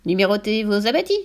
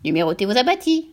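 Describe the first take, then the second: First: Lightly cavernous parrot, rising at the end; a hint of a hollow-voiced parrot; mildly cavernous talking bird. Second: Husky, veiled parrot; muffled, raucous bird voice; veiled, hoarse voice. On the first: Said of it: "avec d'étonnantes intonations caverneuses". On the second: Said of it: "voilée et rauque cette fois-ci". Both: A narrator's reading.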